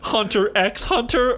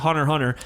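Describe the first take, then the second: First: The letter X is pronounced between the words. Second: The letter X is not pronounced between the words. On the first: The speaker calls it wrong. "he pronounced the X" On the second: The speaker calls it right. "that's not what you call it"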